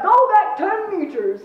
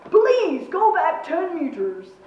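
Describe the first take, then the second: First: Loud, high, drawn-out command; forceful military shout; barked order. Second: Insistent plea, loud raised "please"; commander's forceful, drawn-out appeal; order turned request. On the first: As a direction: bark it like a commander. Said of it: "he barked". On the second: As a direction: turn the command into a slow request. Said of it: "the order turned into a request". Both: A narrator's reading.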